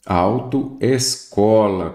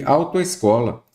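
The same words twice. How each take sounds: First: "Autoescola" very slow, parted into "auto" and "escola"; split into parts. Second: Said in the usual way. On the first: Shown as a demonstration. Teacher showing prefix vowel meets different vowel, very slow and segmented. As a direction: draw out "Autoescola" piece by piece. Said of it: "aqui eu tenho o quê?". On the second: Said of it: "Tem outra palavra aqui".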